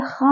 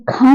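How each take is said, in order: First: खा with a scraped kh like the ch in Bach; raspy Persian kh. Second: Said in the usual way. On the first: Shown as a demonstration. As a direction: say खा with throat friction, not aspirated k. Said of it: "अब ये खा हो गया है". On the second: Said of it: "तो ये खा नहीं रहा".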